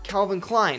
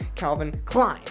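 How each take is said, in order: First: Both names carry equal stress. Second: The stress falls more on Klein. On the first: Both names matter equally. The speaker calls it right. "it makes it" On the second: The last name matters more. The speaker calls it wrong. "instead of"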